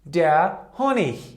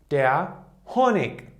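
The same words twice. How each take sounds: First: The word ends in a soft ch sound. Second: The word ends in a hard k sound. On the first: "it could be pronounced like h" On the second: "it could be pronounced like der Honig"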